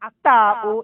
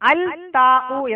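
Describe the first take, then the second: First: The L merges into a doubled T sound. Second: The L is pronounced separately before the T. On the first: The speaker calls it right. "എന്നാണ് പറയേണ്ടത്" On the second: The speaker calls it wrong. "എന്ന് പറയുകയില്ല"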